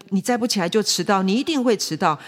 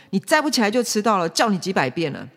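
First: Mildly acted stubborn father; insistent. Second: Quick, exasperated dad scolding; raised-voice scolding. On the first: Father repeating himself to his child, mildly insistent. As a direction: restate it insistently, a touch raised. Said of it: "坚持自己的想法". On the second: Acted. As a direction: nag a child at raised volume, fast at first. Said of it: "爸爸就会更大声说".

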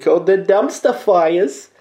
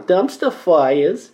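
First: Slow, higher, hammed-up Brooklyn Jewish drawl on Dumpster Fires; mock Brooklyn Jewish announcer voice; Jewish Brooklyn accent. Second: Very slow, drawn-out Brooklyn Jewish take on Dumpster Fires; Jewish Brooklyn accent. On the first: Podcast host introducing his new segment in a hammed-up Brooklyn Jewish accent. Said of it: "I used the Jewish Brooklyn accent there". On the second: Shown as a demonstration. Host demoing the segment name for listeners in a slow Brooklyn Jewish accent. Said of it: "Try it".

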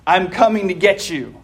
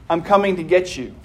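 First: Low gravel vigilante growl. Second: Caring father. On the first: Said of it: "a strange, gravelly voice growls at you". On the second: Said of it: "your father's voice is on the line". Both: A narrator's reading.

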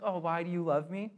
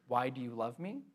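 First: A light, sweet puzzled question; nice way. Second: Said in the usual way. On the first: Shown as a demonstration. Preacher asking it as a loved one would, gently puzzled. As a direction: ask it kindly, genuinely curious. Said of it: "like, a nice way". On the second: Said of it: "Not in, like, a weird way or a mean way".

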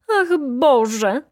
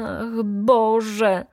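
First: A louder, higher cry of "Ach, Boże!" with a rising "Ach"; the baroness shrieks "Ach, Boże!" as she staggers. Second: Cry out. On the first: The baroness cries out again to the judge, loud and high. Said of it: "krzyknęła znowu baronowa". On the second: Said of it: "Krzyknęła, odwracając głowę". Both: A narrator's reading.

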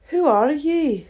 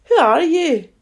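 First: Lightly voiced drowsy caterpillar, higher in pitch; a touch of sleepy languor; languid, sleepy caterpillar. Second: High, louder scornful question; contemptuous caterpillar. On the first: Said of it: "in a languid, sleepy voice". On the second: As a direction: challenge with a touch of contempt. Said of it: "said the caterpillar contemptuously". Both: A narrator's reading.

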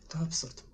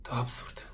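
First: Much softer muttered repeat; voiced mutter to himself, very soft; under his breath. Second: Whispered; whispered aside, not meant to be heard; under his breath. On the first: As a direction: mumble it to yourself. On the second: Acted. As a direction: breathe it out, barely audible. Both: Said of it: "Mówię pod nosem".

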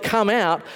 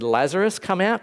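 First: A mock yell of "Come out" at a raised pitch. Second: Said in the usual way. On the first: Shown as a demonstration. Preacher imitating Jesus yelling, mock yell. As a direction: call "Come out" out across the cemetery. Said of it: "if he just yelled". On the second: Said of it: "it's a good thing that Jesus said".

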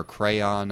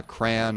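First: "crayon" in two full syllables, "cray-on"; two-syllable pronunciation. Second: "crayon" squeezed into one syllable, "cran"; one-syllable pronunciation. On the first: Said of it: "a lot of extra syllables". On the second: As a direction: say "crayon" to rhyme with man. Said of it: "say certain words wrong". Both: Shown as a demonstration.

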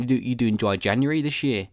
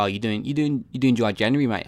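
First: Said in the usual way. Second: Lightly put-on Australian voice; Australian accent. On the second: Mate asking about dry January, light Australian accent. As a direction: ask it like a chummy Australian mate. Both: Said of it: "I don't know why Australian".

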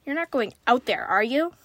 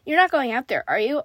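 First: Said in the usual way. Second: Louder, anxious read-aloud question; mildly frightened. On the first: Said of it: "I asked again". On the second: A narrator's reading. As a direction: press the question with a touch of fear.

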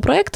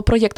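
First: Проєкт without a glide, pro-EKT; hard E, no Y. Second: Проєкт with a y glide, pro-YEKT; Y glide before E. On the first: Offering both variants, проєкт said as pro-EKT. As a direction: say the second syllable of проєкт as plain EKT. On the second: Offering both variants, проєкт said as pro-YEKT. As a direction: say the second syllable of проєкт as YEKT. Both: Shown as a demonstration. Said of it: "якщо ви скажете або проєкт".

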